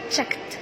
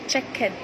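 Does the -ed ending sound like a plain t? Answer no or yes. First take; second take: yes; no. First: The ending is pronounced as a t sound. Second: The ending is not pronounced as a t sound. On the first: The speaker calls it right. "pronounced as checked" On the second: The speaker calls it wrong. "not checked"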